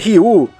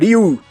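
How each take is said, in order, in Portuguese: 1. É dito com pronúncia portuguesa. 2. É dito com pronúncia japonesa. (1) "Não se pronuncia Ryu" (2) "se pronuncia Ryu"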